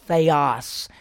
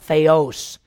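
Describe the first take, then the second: First: The second vowel is not an O sound. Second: The second vowel sounds like an O. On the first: The speaker calls it right. "that omicron, the little O there, is an I sound. It's theos" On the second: The speaker calls it wrong. "not theos"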